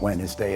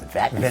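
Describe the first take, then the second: First: The word starts with a W sound. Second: The word starts with a V sound. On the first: "It's not Wednesday" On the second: "The W's become V's"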